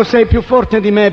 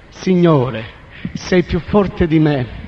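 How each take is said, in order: First: Said in the usual way. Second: Slow, resigned yielding; slow surrender. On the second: Retold or imitated. Kneeling man yielding to the Lord, slow and resigned. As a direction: give in, each word drawn out.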